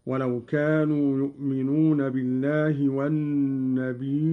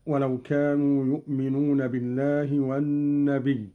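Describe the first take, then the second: First: والنبي with a long ī closed by a hamza; Qalun's hamza reading. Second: Said in the usual way. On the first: Shown as a demonstration. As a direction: recite والنبي as an-nabī', stretched before the glottal stop. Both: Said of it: "قرأ قالون بهمز ياء النبي".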